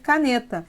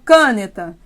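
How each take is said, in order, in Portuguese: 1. A tonicidade está na sílaba do meio. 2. A tonicidade está na primeira sílaba. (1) "então sobrou ser caneta" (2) "Eu falo caneta? Não"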